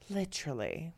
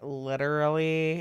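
First: The word is said in a fancier-sounding accent. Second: The word is said in a plainer everyday accent. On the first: This imitates how the other person says it. "And you're like" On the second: This is how the speaker normally says it. "Because I'm like"

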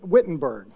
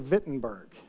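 First: It is said with an English accent. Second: It is said with a German accent.

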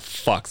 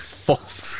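First: The word sounds like the animal 'fox'. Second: The word sounds like 'folks', with a long vowel. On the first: The speaker calls it wrong. "it's not fox" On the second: The speaker calls it right. "it's folks"

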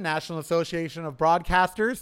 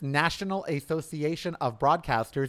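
First: The words are said quickly and run together. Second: Each word is said clearly and carefully.

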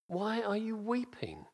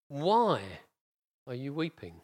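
First: The word weeping carries the emphasis. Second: The word why carries the emphasis.

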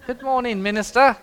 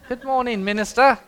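First: It is said in a put-on English accent. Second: The same.

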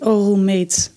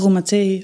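First: It is said like the English word roommate. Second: It is said like a Spanish word, stress at end. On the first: The speaker calls it right. "het is denk ik roommate" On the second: The speaker calls it wrong. "ik dacht juist dat het echt zo in Spaans of zo"

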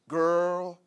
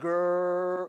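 First: It is said plainly, without drawing it out. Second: It is said sassily, with a drawn-out R.

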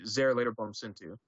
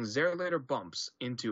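First: The words flow without a pause before bumps. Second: There is a pause before the word bumps. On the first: The speaker calls it right. "it should be just be" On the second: The speaker calls it wrong. "there's a weird pause before bump"

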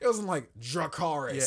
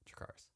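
First: It is said dramatically, with heightened emotion. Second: It is said flatly, without emotion. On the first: The act is charged with strong feeling. "I'm being dramatic" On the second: The act means nothing to the one saying it. "this means nothing to me"

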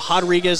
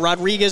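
First: The name is said with a Brazilian pronunciation. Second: The name is said with an American pronunciation. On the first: "they go Rodriguez" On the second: "instead of Rodriguez in America"

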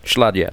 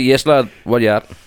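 First: The phrase is squeezed into two short syllables. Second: The phrase is said in full, word by word. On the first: "Just shorten down" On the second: "It's actually yes, lad. What you at?"

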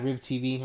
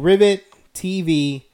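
First: The first word is said as one syllable. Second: The first word is said as two syllables. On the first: The speaker calls it wrong. "I've been saying it wrong the whole time" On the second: The speaker calls it right. "It's Rivet"

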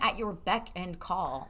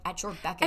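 First: The phrase is said slowly with each word separate. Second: The phrase is said quickly with the words blended. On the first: "You never say someone" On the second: "it's always said quickly"

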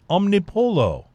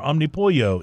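First: The name is pronounced in a non-Texan way. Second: The name is pronounced in a Texan way.

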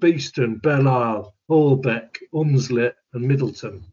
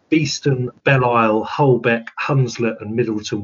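First: It is said in a put-on Leeds accent. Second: It is said in the speaker's usual accent.

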